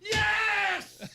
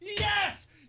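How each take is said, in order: First: The word is drawn out longer. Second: The word is said short.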